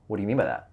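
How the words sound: It sounds like a challenging, interrogating question.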